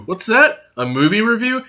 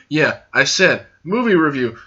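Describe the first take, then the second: First: Higher-pitched questioning voice with a rise; mock surprised question. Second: Firm answer with a falling end; matter-of-fact confirmation. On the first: Playing a puzzled listener. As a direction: viewer asking back about the movie review, in mock surprise. Plays a listener asking back. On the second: Acted. Host answering the imagined viewer, matter-of-fact confirmation. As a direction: confirm it plainly, as if repeating. Answers own mock question.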